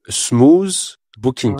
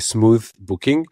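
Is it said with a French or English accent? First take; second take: French; English. First: It is said with a French accent. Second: It is said with a normal English accent.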